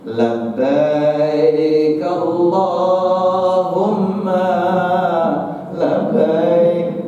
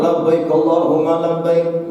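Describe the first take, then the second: First: It is said with a soft, moving melody. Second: It is said with energy and enthusiasm. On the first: This is how it is recited in Indonesia. "dengan nada-nada yang membuat hati batin kita ini terenyuh gitu" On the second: This is how it is recited in Saudi Arabia. "Saudi Arabia dengan semangatnya"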